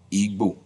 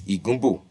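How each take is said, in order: First: The G and B are joined as one sound. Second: The G and B are split by a vowel.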